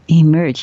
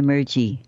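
First: The final E is silent. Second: The final E is pronounced as a vowel. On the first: The speaker calls it right. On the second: The speaker calls it wrong.

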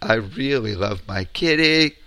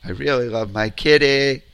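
No difference in how they are said.

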